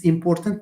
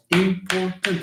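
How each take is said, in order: First: Said in the usual way. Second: "important" slowly split as im-por-tant; syllable by syllable. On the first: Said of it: "trois syllabes". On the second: Shown as a demonstration. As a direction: count out three syllables in "important". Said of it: "And trois syllabes".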